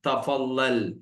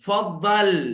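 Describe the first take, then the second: First: The word starts with a 'ta' syllable. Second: The 'ta' syllable at the start is dropped. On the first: This is how people in the UAE say it. "ഈ യു എക്കാര് തഫല്ലൽ എന്ന് തന്നെ പറയും" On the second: This is how people in other countries say it. "മറ്റുള്ള കൺട്രീസിലൊക്കെ ത സൈലന്റ് ആണ്"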